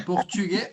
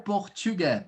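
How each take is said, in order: First: PORTUGUÊS ending in a closed "ay" vowel; closed vowel accent. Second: PORTUGUÊS ending in an open "eh" vowel; open vowel accent. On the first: Teacher compares two French accents, closed final vowel. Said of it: "a gente vai ter esses dois accent". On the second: Teacher compares two French accents, open final vowel. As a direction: end PORTUGUÊS on a wide "geh". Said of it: "mais abertinho ele é". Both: Shown as a demonstration.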